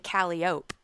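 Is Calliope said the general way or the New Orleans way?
New Orleans. It is said with the local New Orleans pronunciation. The speaker calls it wrong. "people from New Orleans say Calliope"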